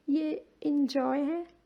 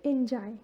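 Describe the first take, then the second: First: Enjoy ending in 'oy', mouth half rounded; enjoy said right, rounded 'oy'; correct enjoy. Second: Enjoy ending in a flat 'ai' sound; the mistaken 'en-jai' version; enjoy said wrongly as 'jai'. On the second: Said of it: "not enjoy". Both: Shown as a demonstration.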